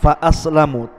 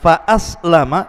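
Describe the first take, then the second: First: The word ends with a 'u' vowel. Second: The word ends with an 'a' vowel. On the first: The companion jinn stays unbelieving but cannot cause harm. "bacaannya ar-raf'u di dhammah" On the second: "kalau dibaca kemudian fathah bukan dhammah"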